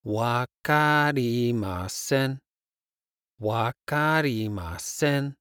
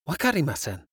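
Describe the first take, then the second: First: Slow. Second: Said in the usual way. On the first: Shown as a demonstration. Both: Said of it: "I don't understand".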